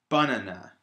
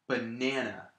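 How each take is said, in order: First: The stress is on the first syllable. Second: The stress is on the middle syllable. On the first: The speaker calls it wrong. "if I was to put the stress on the first syllable" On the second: The speaker calls it right. "I'm putting the stress on the middle syllable"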